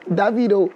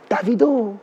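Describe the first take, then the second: First: It is said the South African way. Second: It is said the Parisian French way.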